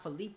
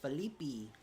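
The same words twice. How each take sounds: First: The name is said with an English pronunciation. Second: The name is said with a Brazilian pronunciation. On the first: The speaker calls it wrong. "not Felipe" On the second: The speaker calls it right. "it's Felipe. The Brazilians do everything with a little bit of a twist"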